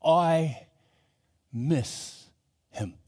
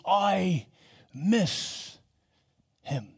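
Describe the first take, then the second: First: Voice cracking. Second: A mild, teary voice breaking; tearful. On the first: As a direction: voice breaking on the words. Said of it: "voice begin to crack". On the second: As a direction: say it as if fighting back tears. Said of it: "wept and sobbed". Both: Retold or imitated.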